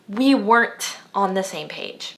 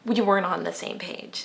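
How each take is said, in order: First: The final T in weren't is clearly pronounced. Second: The final T in weren't is dropped. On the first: "He doesn't say" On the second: "He says"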